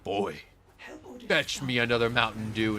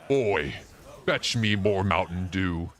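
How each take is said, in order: First: It is said in a normal voice. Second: It is said in a deep, masculine voice.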